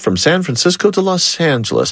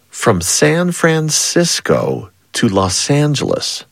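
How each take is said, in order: First: It is said quickly. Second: It is said slowly.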